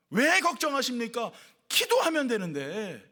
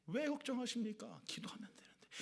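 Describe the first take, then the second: First: Slow, deliberate, stressing 왜 and 기도하면 with a falling close; slow proclamation. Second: Much softer, fading into a whisper on 기도하면 되는데. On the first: Pastor reads the sign's words to the congregation, slow and emphatic. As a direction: proclaim it slowly like a bold sign. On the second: Pastor softly repeats the neon sign's words, whispered. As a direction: hush it like a secret. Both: Shown as a demonstration.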